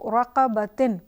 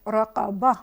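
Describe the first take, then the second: First: The word ends with the syllable -tin. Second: The word ends with a plain vowel a. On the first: The reading continues without stopping. "जैसे यहाँ पर है" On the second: The reader stops on this word. "यहाँ पर हम इसको पढ़ेंगे रक़बा"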